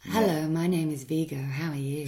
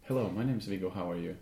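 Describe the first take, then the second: First: Smooth seductive ad voice; a sultry professional read; sexy voiceover voice. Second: Low, soft seductive voice; mock sexy voice. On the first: The voice actor demos the seductive voiceover for the host. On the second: A host imitates the sultry ad voice, low and soft. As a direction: lightly put on a low sultry voice. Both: Shown as a demonstration. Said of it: "with that voice?".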